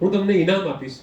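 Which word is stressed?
ઇનામ. The stress falls on the third word. It answers what will be given. "તમે મને શું આપશો"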